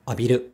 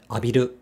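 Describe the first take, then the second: Both takes have the same delivery.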